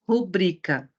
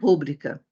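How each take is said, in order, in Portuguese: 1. A sílaba tônica está na segunda sílaba. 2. A sílaba tônica está na primeira sílaba. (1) "Ela é uma paroxítona, porque se pronuncia rubrica" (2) "e não rúbrica"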